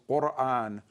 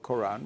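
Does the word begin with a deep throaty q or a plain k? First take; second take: deep q; plain k. First: It begins with a deep throaty q sound. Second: It begins with a plain English k sound. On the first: "its Arabic pronunciation is Quran" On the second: "it now has been changed to ko- K"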